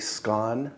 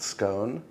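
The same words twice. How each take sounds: First: The word is said with the Scottish pronunciation. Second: The word is said with a non-Scottish pronunciation. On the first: "I say scone, because I use the Scottish pronunciation" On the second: "not scone"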